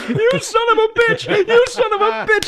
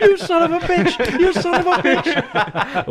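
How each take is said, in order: First: Very high mock yell, laughing; hammed-up shriek. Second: High-pitched mock yell through laughter, slow; hammed-up laughing yell. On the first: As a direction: scream it like a cartoon fighter. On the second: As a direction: shriek it while cracking up. Mock yelled quote, laughing.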